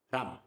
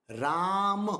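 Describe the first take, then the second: First: "Ram" as one short quick syllable; clipped, no impact. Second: "Ram" with Ra held long, then short "ma"; long, with impact. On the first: Teacher showing it makes no impact, "Ram" cut short. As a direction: throw out "Ram" short, vowel not held. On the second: Teacher showing the correct form makes impact, Ra drawn out. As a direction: stretch the vowel of "Ram" firmly. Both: Shown as a demonstration. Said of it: "Did it make an impact?".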